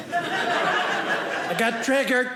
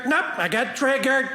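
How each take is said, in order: First: Slow drawn-out triggered. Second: Said in the usual way. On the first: Pretend. Comedian mocking touchy students, slow drawn-out whine. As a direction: drag out I got triggered very slowly with a laugh. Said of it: "It was good till I got triggered".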